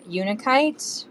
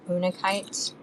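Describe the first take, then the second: First: Unakite said the first way, with a "you" opening; first pronunciation of unakite. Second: Unakite with an "oo" opening, no y sound; alternate pronunciation of unakite. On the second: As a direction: start unakite with a plain "oo". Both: Shown as a demonstration. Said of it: "however you wanna say it".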